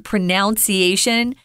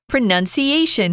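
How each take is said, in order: First: The second syllable sounds like 'noun'. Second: The second syllable sounds like 'nun'. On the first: The speaker calls it wrong. "That is incorrect" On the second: The speaker calls it right. "pronoun, not pronoun"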